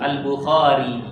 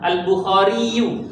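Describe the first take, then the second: First: The name ends on a plain 'ee' sound. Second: The name ends with an added 'yoo' syllable. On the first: "orang-orang suka dibaca waqaf" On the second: "biasanya kan dhamma"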